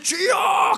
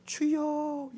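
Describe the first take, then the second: First: It is said loudly. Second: It is said quietly.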